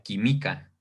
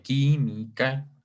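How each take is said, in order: First: "química" said qui-MÍ-ca; mis-stress "química" on the "mi"; "química" with the weight moved to its second syllable, quimíca; stress on middle syllable. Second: "química" drawn out as QUÍ-mi-ca; "química" in three parts, quí, mi, ca; split into syllables. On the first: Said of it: "Si le quitamos el acento, diría". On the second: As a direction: separate "química" syllable by syllable, stress on the first. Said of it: "si lo separamos". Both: Shown as a demonstration.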